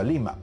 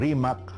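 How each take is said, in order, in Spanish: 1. El nombre empieza con un sonido L. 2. El nombre empieza con un sonido R. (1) "por influencia de la aymara, ese nombre se pronunciaba Limac" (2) "de un nombre como Rimac"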